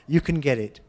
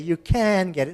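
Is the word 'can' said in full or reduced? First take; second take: reduced; full. First: The word can is weak and unstressed. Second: The word can is full and stressed. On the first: The speaker calls it right. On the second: The speaker calls it wrong. "You wouldn't say"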